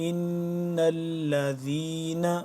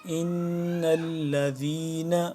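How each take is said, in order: No difference in how they are said.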